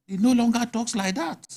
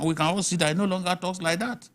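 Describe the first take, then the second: First: "He no longer talks like that" said higher and firmer, leaning on "no"; emphatic repeat. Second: Said in the usual way. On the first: Real, not acted. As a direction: hammer home "no" on the repeat.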